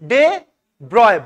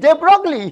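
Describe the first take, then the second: First: The surname is said as 'broy' with no 'gl'. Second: The surname is said with a clear 'gl' sound. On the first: "ওদের অনুযায়ী এটা কি জানিস?" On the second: "আমরা পড়বো Indian style"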